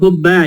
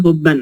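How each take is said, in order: First: The word ends on a plain vowel. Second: The word ends with an added n sound. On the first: The speaker calls it wrong. "Ini bukan hubba ya" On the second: The speaker calls it right. "fathah dua"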